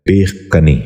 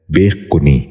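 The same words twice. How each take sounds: First: بے کنی said carefully in its standard form; the proper form of بے کنی, clearly spoken; correct pronunciation. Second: بے کنی said the way the lesson marks as wrong; the mistaken form of بے کنی; wrong pronunciation. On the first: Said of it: "درست تلفظ ہے". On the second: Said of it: "یہ غلط تلفظ ہے". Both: Shown as a demonstration.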